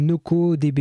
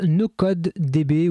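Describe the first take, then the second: First: "No Code D B" said as no-co-dé-bé; pronounced as co. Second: "No Code D B" with a sounded d closing Code; pronounced as code. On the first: Offering viewers the other pronunciation, "No Code D B" run as no-co-dé-bé. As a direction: drop the first d in "No Code D B", so Code becomes co. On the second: Offering viewers one possible pronunciation, "No Code D B" with Code fully sounded. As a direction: say "No Code D B" as English no-code, then the letters. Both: Shown as a demonstration. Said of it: "je sais pas comment on le prononce".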